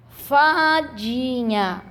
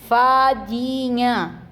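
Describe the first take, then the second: First: "Fadinha" sounded out slowly, last vowel held long; teacher sounding out "Fadinha"; syllable by syllable. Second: "fadinha" said slowly, syllables clear; slow word. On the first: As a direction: split "Fadinha" into syllables, holding the end. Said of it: "A sílaba do meio da palavra fadinha". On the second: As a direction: draw out "fadinha" gently. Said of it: "Uma fada pequenininha é uma". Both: Shown as a demonstration.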